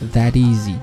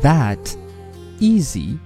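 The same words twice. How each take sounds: First: The two words are linked into one flow. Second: The two words are said separately, not linked.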